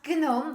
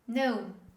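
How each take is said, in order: First: The g sound is pronounced at the start. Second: The g sound is left out at the start. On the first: The speaker calls it wrong. "they pronounce all the letters in this word" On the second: The speaker calls it right. "the correct pronunciation is gnome"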